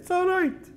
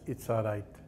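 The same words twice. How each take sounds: First: It is said loudly with a raised voice. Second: It is said at a normal, softer volume.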